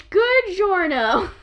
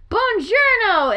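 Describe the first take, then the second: First: Slow mock Spanish pun; Graham's joke greeting. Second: Slow, higher mock Italian greeting; Graham's greeting. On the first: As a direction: drag the pun out like a game character. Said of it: "or as they say in Spanish". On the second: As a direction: stretch it like a cheesy game character. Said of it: "the joke Graham in Animal Crossing".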